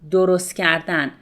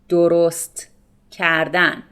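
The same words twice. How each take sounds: First: It is said fast, with the t sound dropped. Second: The t sound in the first word is pronounced.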